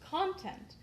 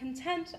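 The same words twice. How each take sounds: First: The stress is on the first syllable. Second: The stress is on the second syllable. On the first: "you put the emphasis on the first syllable" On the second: "as we say it, meaning happiness"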